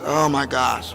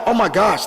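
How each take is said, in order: First: Low, deflated groan of dismay; sad, weary dread. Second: An eager little gush of delight; excited. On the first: Retold or imitated. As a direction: imitate someone dreading work, pitch dropped. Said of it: "they get sad". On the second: Acted. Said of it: "I get excited".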